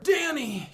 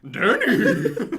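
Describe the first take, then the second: First: It is said in a normal voice. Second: It is said like a horse's voice.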